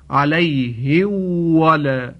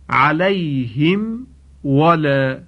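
First: The m is merged into the following w. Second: The m is pronounced clearly before the w. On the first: The speaker calls it wrong. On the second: The speaker calls it right.

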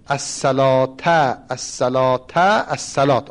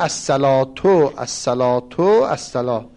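First: The first two words end with an 'a' vowel. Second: The first two words end with a 'u' vowel. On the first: It is an urging to come to the prayer. "حالا به نسب الاولین" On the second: It announces that the prayer has begun. "یا اینجور او رفعه هما"

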